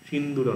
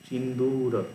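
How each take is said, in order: First: The second-syllable vowel is short. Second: The second-syllable vowel is long. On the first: The speaker calls it wrong. "সিন্দুর নয়" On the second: The speaker calls it right. "দীর্ঘ হচ্ছে বলে"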